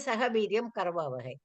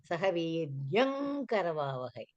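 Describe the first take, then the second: First: Viryam ends in a plain m sound. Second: The nasal blends into an ng before karavavahai. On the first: This is how it is said in ordinary speech. "we say" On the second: This is how it is recited in Vedic chanting. "when the pandits recite ... तत्परसवर्णसन्धि comes there"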